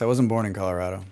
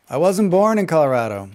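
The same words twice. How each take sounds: First: Said in the usual way. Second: "born" stressed, louder, falling; emphatic correction. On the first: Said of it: "said twice". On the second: Real, not acted. Streamer correcting chat, emphatic "born". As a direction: insist on "born". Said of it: "repeat louder".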